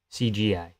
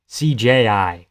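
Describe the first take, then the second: First: "C G I" with a plain hard G sound in the middle; wrong acronym. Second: "C J I" spelled out slowly with a clear J in the middle; slow and careful "C J I", each letter apart; right acronym, slowly. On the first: Streamer corrects himself to chat, says the wrong acronym plainly. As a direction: say "C G I" as the usual film term. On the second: Streamer corrects his acronym for chat, slow and deliberate. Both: Shown as a demonstration. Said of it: "That's C J I".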